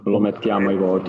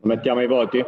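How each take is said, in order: First: "Lo mettiamo ai voti" as a flat statement, falling at the end. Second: "Lo mettiamo ai voti?" as a question, stress on "voti"; rising question. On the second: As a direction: ask "Lo mettiamo ai voti?" with weight on "voti". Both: Real, not acted.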